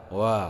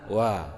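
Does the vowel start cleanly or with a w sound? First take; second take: w sound; w sound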